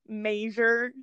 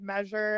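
First: The word is said in a Pittsburgh accent. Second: The word is said in a standard accent. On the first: This is how the dad says it. "he says, like, measure" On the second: This is the usual way to say it. "instead of measure"

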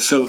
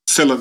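First: It is said without an Irish pronunciation. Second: It is said with an Irish pronunciation.

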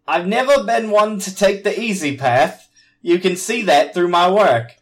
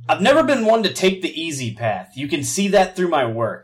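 First: It is read in a British accent. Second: It is read in the speaker's plain accent.

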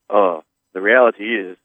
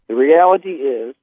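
First: It is said in a put-on, deep voice. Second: It is said in a plain, natural voice. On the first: "the worst fake J of all time" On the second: "you got to read it in the right voice"

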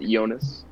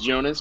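First: The name has a German pronunciation. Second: The name has an English pronunciation. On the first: "but they pronounce it" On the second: "The main character's name is"

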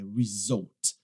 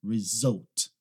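Both takes have the same delivery.

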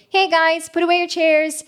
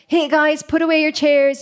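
First: The voice is light, bright and twangy. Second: The voice is heavy, deep and bassy.

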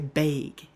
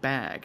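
First: It is said in the local regional accent. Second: It is said in the speaker's usual accent. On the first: "up here, they also say bag" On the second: "instead of bag"

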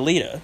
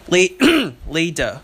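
First: The word is said quickly and loosely. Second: The word is said slowly and clearly. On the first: The speaker calls it wrong. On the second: The speaker calls it right.

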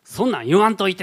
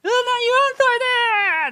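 First: It sounds mildly irritated. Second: It sounds explosive and tearful.

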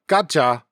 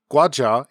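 First: It is said in Gyeongsang dialect. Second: It is said in standard Korean.

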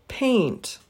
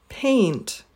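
Both takes have the same delivery.

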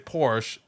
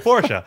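First: The name is said with an English pronunciation. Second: The name is said with a German pronunciation. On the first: "if I'm speaking English, I'll say" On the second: "if I'm speaking German, which I never do, I would say"

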